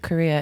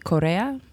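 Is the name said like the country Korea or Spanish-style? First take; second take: like Korea; Spanish-style. First: The name sounds like the country Korea. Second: The name is said with a Spanish-style pronunciation. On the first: This is the easier pronunciation that everyone uses. "everyone says Korea. It looks like Korea. Let's just say Korea" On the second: This is the family's original pronunciation of the name. "pronouncing it properly, which would be Correa, because it's Mexican-American originally"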